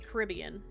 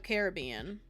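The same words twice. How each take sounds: First: The stress falls on the second syllable, rib. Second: The stress falls on the third syllable, bean. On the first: "No, the other one" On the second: "Carry the bean in"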